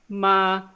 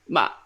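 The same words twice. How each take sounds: First: The pitch stays flat and high. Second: The pitch falls sharply, sounding angry. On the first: "it's just a flat, high-pitched sound" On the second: "the angry tone, I call it"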